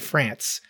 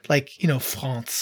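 First: The word is said with an English pronunciation. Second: The word is said with a French pronunciation. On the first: The speaker calls it right. "I say France" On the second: The speaker calls it wrong. "you don't have to French it up like that. Like I don't say France"

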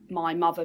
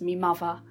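First: The first word is said as 'my'. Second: The first word is said as 'me'. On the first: "I have a fairly RP accent" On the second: "my changes to me"

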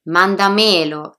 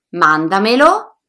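First: The stress falls on the third syllable. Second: The stress falls on the first syllable. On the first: The speaker calls it wrong. "sono sbagliati" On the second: The speaker calls it right. "La pronuncia corretta è"

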